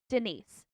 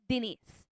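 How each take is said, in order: First: It is said in her usual accent. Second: It is said in a Filipino accent.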